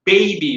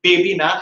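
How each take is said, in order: First: বেবি with a drawn gliding ei; correct diphthong. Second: বেবি with a short pure e; no glide in the e of বেবি; wrong vowel. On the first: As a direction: say বেবি as English BAY-bee. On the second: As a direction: say বেবি the Bengali way, plain e. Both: Shown as a demonstration.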